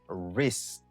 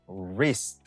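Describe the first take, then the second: No difference in how they are said.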